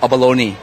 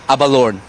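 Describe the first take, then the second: First: It is pronounced the English-speaking way. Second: It is pronounced the Asian way. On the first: "normally if for England or U S they call abalone" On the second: "but in Asia we call abalone"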